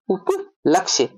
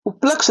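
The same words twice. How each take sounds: First: उपलक्ष्य said slowly, with the final क्ष्य clear; slow, careful उपलक्ष्य, stretching the ending; correct form spelled out slowly. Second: उपलक्ष said plainly, ending on क्ष; the wrong form उपलक्ष, with no य at the end; wrong form shown. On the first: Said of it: "वो होता है उपलक्ष्य". (सही रूप उपलक्ष्य, धीरे-धीरे, क्ष्य साफ़ बोलते हुए) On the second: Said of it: "उपलक्ष नहीं होता है". (गलत रूप उपलक्ष, अंत में य के बिना) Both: Shown as a demonstration.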